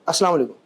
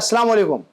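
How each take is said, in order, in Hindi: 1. आवाज़ आधी निगली हुई और दबी हुई है। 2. आवाज़ पूरी और साफ़ निकल रही है। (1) "आधी आवाज आ रही है आधी अंदर" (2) "अब आ रही है"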